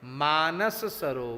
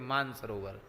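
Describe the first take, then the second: First: The first word is said with the 'sa' syllable. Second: The first word is said without the 'sa' syllable. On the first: The speaker calls it right. "इसका नाम क्या है? मानस सरोवर" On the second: The speaker calls it wrong. "सा का तो लोग उच्चारण ही नहीं करते, सीधे कह देते मान सरोवर"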